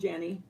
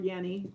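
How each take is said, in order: First: The name begins with a J sound. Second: The name begins with a Y sound.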